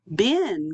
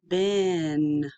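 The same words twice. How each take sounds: First: BEN as one quick, natural word; said faster. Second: BEN drawn out slowly on a level pitch; stretched out. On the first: Teacher showing students the finished word, BEN said faster. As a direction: bring BEN together with a lift in pitch. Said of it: "then you can say it faster". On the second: Teacher blending sounds for students, BEN slowly stretched out. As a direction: stretch BEN, holding vowel and n. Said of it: "say it slowly and stretched out". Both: Shown as a demonstration.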